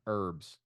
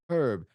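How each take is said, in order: First: The word starts without an H sound. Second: The word starts with a clear H sound. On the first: This is the American way of saying it. "Kind of like in America with herbs. The H is silent" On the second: This is the English way of saying it. "if you're English, then you're like Eddie Izzard and you pronounce it herb because there's a fucking H in it"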